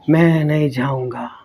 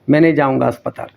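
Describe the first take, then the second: First: It is said in a weak, quiet voice. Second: It is said in a normal, firm voice.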